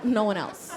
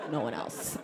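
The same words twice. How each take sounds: First: Said in the usual way. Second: Lower, softer repeat with a laugh; quiet aside. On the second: Shown as a demonstration. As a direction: mutter it again under your breath, amused.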